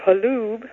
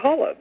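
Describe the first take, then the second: First: The name is pronounced the original Czech way. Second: The name is pronounced the family's anglicized way. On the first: This is the original pronunciation from the old country. "changed the pronunciation of the name from halub" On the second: This is the changed pronunciation the family uses now. "to holub"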